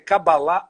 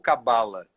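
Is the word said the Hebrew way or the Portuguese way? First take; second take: Hebrew; Portuguese. First: The word is said with a Hebrew pronunciation. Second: The word is said with a Portuguese pronunciation.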